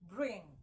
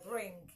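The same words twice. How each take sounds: First: It ends in a nasal sound without g. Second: It ends with a hard g sound. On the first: The speaker calls it right. "You say what? Bring" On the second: The speaker calls it wrong. "You don't say bring"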